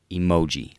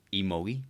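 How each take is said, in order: First: Emoji. said louder with a falling tune, settled; correcting yourself on Emoji; firm Emoji. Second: Emoji? asked with a rising tune, unsure; double-checking how to say Emoji?; questioning Emoji. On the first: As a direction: land Emoji. as the final answer. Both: Shown as a demonstration.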